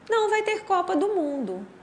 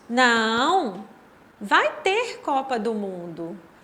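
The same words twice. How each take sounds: First: It is said without a pause after não. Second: There is a pause after não.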